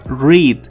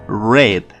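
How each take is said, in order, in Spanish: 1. La palabra rima con 'need', con vocal larga. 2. La palabra suena como el color 'red'. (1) "En infinitivo y en presente y en futuro se lee read" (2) "pero en pasado se lee red, como el color rojo"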